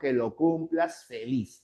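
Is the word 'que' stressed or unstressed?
unstressed. The word que is unstressed. The speaker calls it right.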